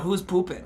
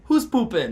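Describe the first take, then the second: First: Raised-pitch mocking echo of the question; aggressive mimicry. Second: High, jokey call into the bathroom; playful call-out. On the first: Stranger throws his question back at him, aggressive mimicry. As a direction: imitate an irate man throwing it back. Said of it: "like, so aggressive". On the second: Retold or imitated. Calling to a bandmate he thinks is inside, playful call-out. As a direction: sing out the question to a bandmate.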